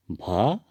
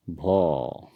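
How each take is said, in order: First: "भ" with an open a vowel; Hindi pronunciation. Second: "भो" with a long rounded o; Assamese pronunciation. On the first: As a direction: say "भ" the Hindi way, ending in a. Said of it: "Hindi में भ". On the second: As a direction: say "भो" the Assamese way, o instead of a. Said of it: "असमिया में होता है". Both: Shown as a demonstration.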